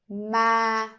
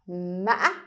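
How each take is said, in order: First: The pitch stays level and fairly high. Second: The voice breaks and ends very high. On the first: "You keep it stable, a little bit high" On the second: "it sounds like you trip when you say this word"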